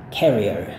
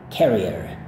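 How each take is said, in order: First: It is said American style, with the R. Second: The same.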